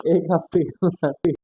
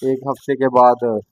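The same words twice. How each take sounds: First: Drawn out, weary. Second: Said in the usual way. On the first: Shown as a demonstration. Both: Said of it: "इतनी बार बोल लिया कि मैं खुद ही bore हो गया".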